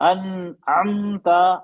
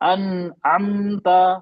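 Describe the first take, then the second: The two takes are said the same way.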